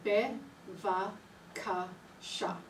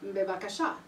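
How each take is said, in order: First: It is said slowly, syllable by syllable. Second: It is said quickly as one word.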